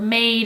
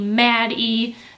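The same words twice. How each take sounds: First: The word ends silently with a long A vowel. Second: A separate E sound is said at the end.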